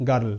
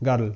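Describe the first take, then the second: No difference in how they are said.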